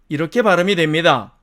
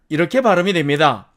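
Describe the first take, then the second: Both takes have the same delivery.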